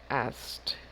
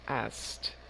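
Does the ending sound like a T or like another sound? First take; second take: T; T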